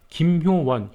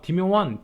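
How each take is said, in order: First: The name begins with a plain K sound. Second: The name begins with a lisped D sound.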